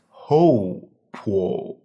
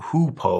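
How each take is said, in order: First: The first syllable has an 'oh' vowel, like 'hoe'. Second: The first syllable has an 'oo' vowel, like 'who'. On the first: The speaker calls it right. "in Chinese, this would be pronounced ho-po" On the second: The speaker calls it wrong. "they might think it's pronounced like you, Y O U, but it's it's not hoopoe"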